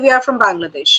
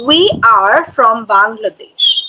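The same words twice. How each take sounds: First: The phrase is spoken quickly. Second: The phrase is spoken slowly and loudly. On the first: The speaker calls it wrong. "You are saying like this" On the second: The speaker calls it right. "your volume should be high, but the pace should be slow"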